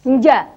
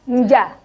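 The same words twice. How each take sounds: The two takes are said the same way.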